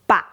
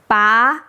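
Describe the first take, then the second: First: The pitch falls first, then rises slightly. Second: The pitch rises smoothly from low to high. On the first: "Third tone is fall, then rise" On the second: "Second tone is a straight rise"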